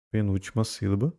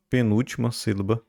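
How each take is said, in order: Both takes have the same delivery.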